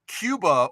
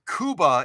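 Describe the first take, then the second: First: It is said with the common pronunciation. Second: It is said with an alternative pronunciation.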